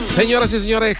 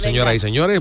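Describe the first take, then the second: First: It is said loudly, fast and with high energy. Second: It is said calmly, slower and with less energy. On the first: The speaker calls it wrong. "Que empezamos muy fuerte" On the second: The speaker calls it right. "empiezo más tranquilito"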